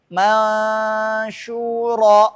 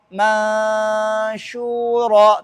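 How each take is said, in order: Both takes have the same delivery.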